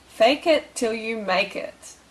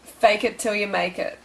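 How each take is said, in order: First: "Fake it till you make it" slowly spaced out; slow, emphatic repeat. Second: Said in the usual way. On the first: Shown as a demonstration. Coach repeating the tip to viewers, slow and emphatic.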